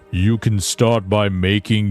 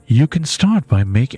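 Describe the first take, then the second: First: It is said in a lower, more masculine voice. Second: It is said in a higher, feminine-sounding voice. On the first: The speaker calls it right. "I'm gonna do a more manly voice" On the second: The speaker calls it wrong. "that's not a woman's voice. I'm not doing a woman's voice"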